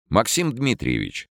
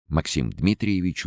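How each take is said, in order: First: Максим Дмитриевич called higher; Максим Дмитриевич called across the hall; calling out. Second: Said in the usual way. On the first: Acted. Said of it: "спросил полушутя".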